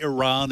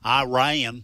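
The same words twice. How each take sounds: First: Iran is said with the standard pronunciation. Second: Iran is said with a Southern US pronunciation. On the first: "the way you pronounce it properly" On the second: "That's the southern way"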